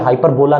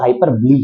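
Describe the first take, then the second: First: The word ends with a final 'la' sound. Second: The word ends with a final 'lee' sound. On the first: The speaker calls it wrong. "नहीं पढ़ेंगे" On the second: The speaker calls it right. "हाइपरबली ही pronounce करेंगे"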